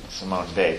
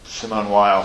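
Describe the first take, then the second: First: The name is said with a French pronunciation. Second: The name is said with an English pronunciation. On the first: The speaker calls it right. "pronounced in French" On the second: The speaker calls it wrong. "Joel called her Simone Weil for years"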